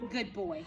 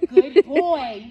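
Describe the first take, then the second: First: Said in the usual way. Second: Big loud burst of praise, same pitch. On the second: Real, not acted. Trainer loudly praising her dog on the walk, booming. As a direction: cheer the dog on loudly for trying hard.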